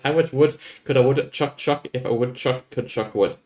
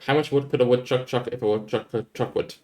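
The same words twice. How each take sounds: First: It is said at a normal pace. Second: It is said at a fast pace.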